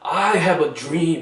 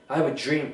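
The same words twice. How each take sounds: First: Each word is said slowly and distinctly. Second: The words are run together quickly. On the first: This is speech-style delivery, not everyday talk. The speaker calls it wrong. "연설문에서처럼 ... 똑바로 발음해주지 않는단 말이에요" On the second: This is how native speakers actually talk. The speaker calls it right. "이런 식으로 빠르게 말해버리죠"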